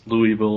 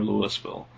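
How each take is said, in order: First: "Louisville" said as LOO-ee-vil; LOO-ee-vil, as outsiders say "Louisville"; outsider pronunciation. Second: "Louisville" said as LOO-is-vil; LOO-is-vil, as outsiders say "Louisville"; outsider pronunciation. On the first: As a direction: give "Louisville" an "ee" middle, no s. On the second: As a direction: sound the s in "Louisville". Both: Shown as a demonstration. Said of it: "everybody that's not from here says".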